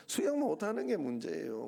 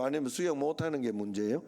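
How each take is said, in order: First: 수영 hit firmly and the sentence closes down; firm answer. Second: 수영 asked with weight and the question lifting at the end; rising question. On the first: Pastor answering his own question, firm falling answer. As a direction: stress on 수영, falling end. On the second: Pastor quizzing the congregation, rising question. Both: Shown as a demonstration.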